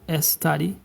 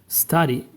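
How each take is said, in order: First: A vowel sound comes before the s. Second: The word starts directly with the s. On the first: The speaker calls it wrong. "It is not S study" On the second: The speaker calls it right. "It just begins with the S right away"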